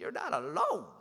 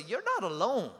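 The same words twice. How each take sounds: First: "You're not alone" in a high, swooping singsong; mimicked exaggerated inflection. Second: "You're not alone" with a lilt, falling at the end; prompting with inflection. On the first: Preacher imitating the congregation's inflection, high playful singsong. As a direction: mimic the lilt, pitching "alone" way up, then dropping. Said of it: "Some of you even did the inflection".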